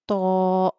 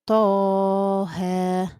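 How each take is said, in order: First: The word ends with a glottal stop. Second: The word ends on an open vowel. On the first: The speaker calls it wrong. "You do not say" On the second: The speaker calls it right. "The right way is"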